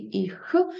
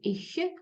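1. Кінцевий приголосний — тверда горлова kh. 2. Кінцевий приголосний — м'який піднебінний шиплячий звук. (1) "Може бути твердий «іх»" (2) "здебільшого це м'який «ich»"

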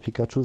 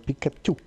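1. Der Name wird auf die übliche, vertraute Art ausgesprochen. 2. Der Name wird auf kantonesische Art ausgesprochen. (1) "Das heißt nicht mehr Pikachu" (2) "Das wird jetzt kantonesisch ausgesprochen"

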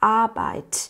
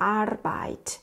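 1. สระตัวแรกลากยาว ไม่มีเสียง r 2. เสียง r หลังสระตัวแรกออกเสียงชัดเจน (1) "ตัวนี้ออกเสียงยาวนะคะ" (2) "แต่ภาคใต้เนี่ยจะออกเสียงเป็น"

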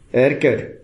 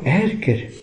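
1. Es wird missbilligend und verärgert gesagt. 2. Es wird interessiert und neugierig gesagt. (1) "dann ist ziemlich offensichtlich, dass ich das blöd finde" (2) "dann ist Interesse da, oder Neugierde"

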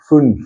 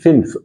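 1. Der Vokal ist gerundet, ein klarer ü-Laut. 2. Der Vokal ist ungerundet, nah an einem i. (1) "Ü" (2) "Nicht fünf"

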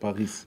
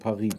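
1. Der Name wird deutsch ausgesprochen. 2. Der Name wird französisch ausgesprochen. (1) "nicht Paris" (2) "die Franzosen sagen Paris"

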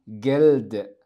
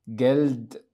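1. تنتهي الكلمة بصوت د مجهور. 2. تنتهي الكلمة بصوت د مجهور.

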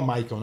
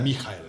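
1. O nome é pronunciado do jeito inglês. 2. O nome é pronunciado do jeito alemão. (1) "Inclusive não fala Michael" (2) "Eu perguntei pros caras, é Michael"

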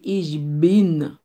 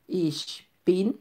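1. Le deuxième mot commence par un vrai son b. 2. Le deuxième mot commence par un son proche de p. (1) "Ou pas pour dire Ish bin" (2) "on dit Ish pin"

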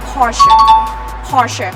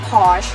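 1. ออกเสียงแบบเยอรมันดั้งเดิมค่ะ 2. ออกเสียงแบบฝรั่งสั้นๆ ค่ะ (1) "ประเทศเยอรมนีเขาออกเสียงว่า" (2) "ถ้าเป็นภาษาฝรั่งบางประเทศเขาก็จะเรียกสั้นๆว่า"

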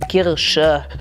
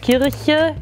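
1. Der mittlere Konsonant ist ein sch-Laut. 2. Der mittlere Konsonant ist ein weiches ch. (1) "das ist die Kirsche" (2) "das CH gibt auch nicht. Also Kirche gibt nicht"

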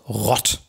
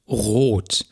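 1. Der Vokal ist ein kurzes, offenes O. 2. Der Vokal ist ein langes, geschlossenes O. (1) "Es ist aber nicht rott. ... das wäre dann ungespannt und würde auch nicht lang werden können" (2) "ein langes, geschlossenes O"

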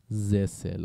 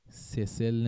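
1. این کلمه با صدای z شروع میشه. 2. این کلمه با صدای s شروع میشه. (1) "اولیش زه خونده میشه" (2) "سسل نمیگیم"

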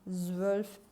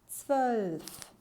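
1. Kelime Türkçe tarzı bir z ile söylenir. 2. Kelime Almanca tarzı bir z ile söylenir.

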